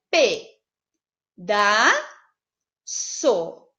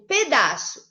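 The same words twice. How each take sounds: First: "pe, da, so" split into three slow separated syllables. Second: Said in the usual way. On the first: Shown as a demonstration. Teacher splitting the word for home students, syllables spaced. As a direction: pause between each syllable of "pe, da, so". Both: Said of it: "eu separaria".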